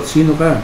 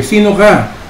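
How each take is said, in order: First: Echo reply. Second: Mock call, pitched high; child calling again into the woods. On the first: Retold or imitated. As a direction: echo answering the child. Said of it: "Ganun din yung sagot". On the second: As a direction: shout the question into the forest. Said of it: "At ang sabi niya".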